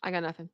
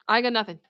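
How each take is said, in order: First: Speechless. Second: Said in the usual way. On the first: Real, not acted.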